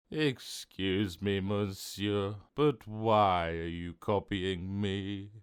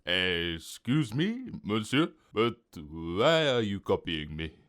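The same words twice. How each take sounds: First: Slow, dejected echo; miserable copycat. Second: Slow-starting, affronted French waiter; shocked French waiter. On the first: Mister Copycat repeating the waiter's words, slow and miserable. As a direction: drag the question out glumly. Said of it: "looking more miserable". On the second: Waiter shocked by the copycat's answer, French-accented protest. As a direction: question a customer in a French accent. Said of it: "The waiter was shocked". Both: A narrator's reading.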